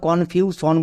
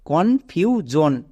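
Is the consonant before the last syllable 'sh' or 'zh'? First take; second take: sh; zh. First: The middle consonant is a voiceless 'sh' sound. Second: The middle consonant is a voiced 'zh' sound. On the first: The speaker calls it wrong. "একে আমরা কনফিউশন বলতে পারবো না" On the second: The speaker calls it right. "তাহলে কি হলো কনফিউজন"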